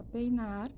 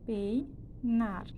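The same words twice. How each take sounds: First: Said in the usual way. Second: PEINAR said as PEI, pause, NAR; split into syllables. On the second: Shown as a demonstration. Teacher dividing a word for students, peinar split as pei-nar. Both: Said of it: "Então, eu separei".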